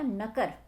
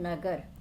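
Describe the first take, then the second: First: The middle consonant is a voiceless k. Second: The middle consonant is a voiced g. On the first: "अघोष हो गए हैं" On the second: "पहले सघोष थे"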